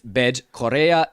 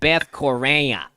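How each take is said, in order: First: It is said in a Brazilian Portuguese accent. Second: It is said in a nasal Chicago American accent. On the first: The speaker calls it right. "But it's" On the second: The speaker calls it wrong. "if you're a nice nasally Chicagoan"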